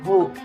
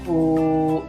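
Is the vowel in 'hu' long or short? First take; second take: short; long. First: The vowel is short and clipped. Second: The vowel is held for two beats. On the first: The speaker calls it wrong. "jangan dibaca pendek. Hu, salah" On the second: The speaker calls it right. "Yang benar dibaca panjang. Hu, sekitar dua harokat"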